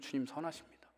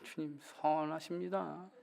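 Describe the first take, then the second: First: It is said in an earnest, tearful tone. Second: It is said in a mocking, sarcastic tone. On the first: The speaker truly believes it despite pain. The speaker calls it right. "정말 눈물이 쏟아져도 그래도" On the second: The speaker does not really believe it. The speaker calls it wrong. "비아냥거리는 말투를 하는 거 말고요. ... 이게 아니고요"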